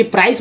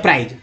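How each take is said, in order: First: "प्राइस" with a final s sound; correct pronunciation. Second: "प्राइज" with a final j/z sound; common mispronunciation. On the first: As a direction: end "प्राइस" on a voiceless s. ("प्राइस" के अंत में स बोलें) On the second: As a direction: end "प्राइज" on a voiced buzz. ("प्राइज" के अंत में ज बोलें) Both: Shown as a demonstration. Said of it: "प्राइस बोलते हैं प्राइज".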